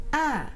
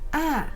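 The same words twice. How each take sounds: Both takes have the same delivery.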